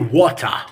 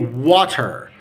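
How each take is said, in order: First: It is said with no R sound at the end. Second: It is said with a clear T and final R. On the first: "in the British accent we can say water" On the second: "That's in the Egyptian accent or in uh, normal accent"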